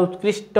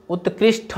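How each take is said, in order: First: उत्कृष्ट ending in unaspirated "shta"; correct form. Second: उत्कृष्ट ending in aspirated "shtha"; wrong form. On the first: Teacher giving students the correction, उत्कृष्ट ending in unaspirated "shta". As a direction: say उत्कृष्ट as "utkrishta", no puff on the t. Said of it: "उत्कृष्ट होता है". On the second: Teacher rejecting a misspelling, उत्कृष्ट ending in aspirated "shtha". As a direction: say उत्कृष्ट as "utkrishtha", with a puff on the last t. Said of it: "उत्कृष्ट नहीं होता है". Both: Shown as a demonstration.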